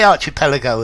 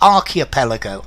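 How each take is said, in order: First: The 'ch' is said as in 'change'. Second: The 'ch' is said as a k sound. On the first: "You could say archipelago as well" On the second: "I would probably g- give it a K"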